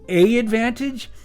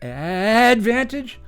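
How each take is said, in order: First: A separate 'A' sound comes before 'Advantage'. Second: It is said as plain 'Advantage' alone. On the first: "Is it A Advantage?" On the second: "Is it Advantage?"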